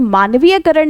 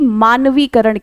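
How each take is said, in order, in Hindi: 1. 'karan' से पहले 'ya' की ध्वनि आती है। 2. 'karan' से पहले कोई 'ya' की ध्वनि नहीं आती। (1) "शुद्ध शब्द मानवीयकरण नहीं" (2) "बल्कि मानवीकरण कहलाता है"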